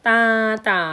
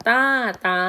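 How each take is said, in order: Both takes have the same delivery.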